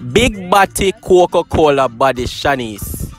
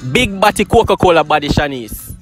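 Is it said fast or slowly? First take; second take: slowly; fast. First: It is said slowly. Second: It is said fast.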